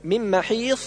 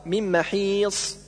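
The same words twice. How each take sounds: First: محيص ending on emphatic th; sad as heavy th. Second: محيص ending on emphatic whistled s; correct sad. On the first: Teacher showing the error, heavy th in محيص. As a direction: lisp the ص of محيص, keeping it heavy. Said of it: "والنطق بالصاد ثاء مفخمة". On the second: Teacher correcting, محيص with true ص. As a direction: give محيص a full heavy ص. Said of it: "والصواب". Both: Shown as a demonstration.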